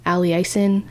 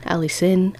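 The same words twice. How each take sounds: First: Allicin said as al-ee-EYE-sin with a long i; unsure pronunciation. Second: Allicin said as AL-ih-sin with a short i; second pronunciation try. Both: Shown as a demonstration. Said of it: "I don't know how you pronounce it".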